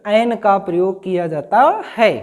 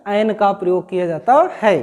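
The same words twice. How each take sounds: The two takes are said the same way.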